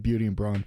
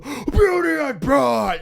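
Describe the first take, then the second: First: The name is said quietly and softly. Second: The name is yelled loudly and suddenly. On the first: "You say it like in a just a, a very feeble way" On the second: "all of a sudden go"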